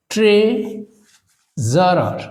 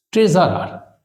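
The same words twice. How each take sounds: First: treasurer very slowly, split after tray; treasurer broken up for a spelling class; syllable by syllable. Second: Said in the usual way. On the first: Shown as a demonstration. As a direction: stretch tray, pause, then Zarar. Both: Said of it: "syllable ভাগ করে এটাকে যদি আমরা উচ্চারণ করি".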